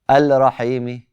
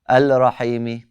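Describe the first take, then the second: No difference in how they are said.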